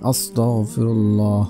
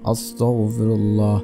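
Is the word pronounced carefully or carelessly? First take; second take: carefully; carefully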